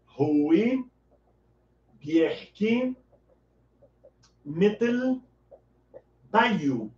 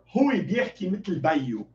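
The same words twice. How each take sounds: First: "Rui Bierki Metel Bayu" word by word with long pauses between; slow Arabic demo. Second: Said in the usual way. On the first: Shown as a demonstration. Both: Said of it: "Você vai dizer".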